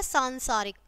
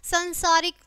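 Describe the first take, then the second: First: सांसारिक said "saansaarik", long first "aa"; correct long vowel. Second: संसारिक said "sansaarik", short first vowel; wrong short vowel. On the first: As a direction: stretch the opening "saan" of सांसारिक. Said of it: "और फिर शुद्ध है". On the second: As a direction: begin संसारिक on a short nasal "san". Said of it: "पहले हमारी अशुद्ध शब्द है". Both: Shown as a demonstration.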